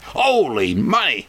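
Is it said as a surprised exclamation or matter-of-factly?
exclamation. It is exclaimed like a surprised outburst.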